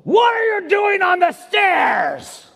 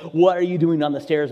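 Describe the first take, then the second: First: Full-throated, drawn-out angry dad roar; re-enacted furious outburst; angry growling yell. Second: Said in the usual way. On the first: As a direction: yell it high and slow with a growl. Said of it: "I yelled and I growled in a tone".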